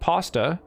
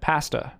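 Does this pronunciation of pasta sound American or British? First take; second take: American; British. First: The word is said with an American pronunciation. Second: The word is said with a British pronunciation. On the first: "for the American pronunciation, it said pasta" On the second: "and for the British, said pasta"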